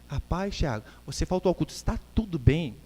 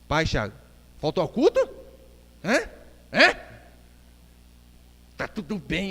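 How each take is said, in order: First: It sounds caring and concerned. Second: It sounds accusing and hostile.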